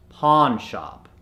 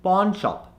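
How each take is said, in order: First: Pawn shop slowed, "ah" in both words; American accent. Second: Pawn shop with rounded "o" vowels; Indian accent. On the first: Coach gives the converted word, American accent. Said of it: "to the American accent". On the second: Coach gives the word to convert, Indian accent. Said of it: "from the Indian accent". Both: Shown as a demonstration.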